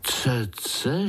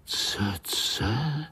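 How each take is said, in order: First: Voiced rising question; amazed question. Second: Breathy astonished whisper of the strange word; amazed whisper. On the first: Little spiders asking the uncle aloud, puzzled. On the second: Acted. Little spiders wondering at the uncle's word, whispered. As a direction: hush it, wide-eyed. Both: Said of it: "žasli pavoučci".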